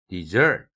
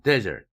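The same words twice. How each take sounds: First: The stress is on the second syllable. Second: The stress is on the first syllable. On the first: It is a verb meaning to abandon. "두 번째 음절에 강세를 두면" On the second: It is a noun meaning a dry barren land, or an adjective meaning desolate. "첫 음절에 강세를 두면"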